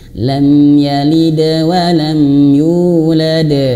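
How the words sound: The bounce flows straight into the next sound. The speaker calls it right. "mengalir saja langsung ke huruf sesudahnya"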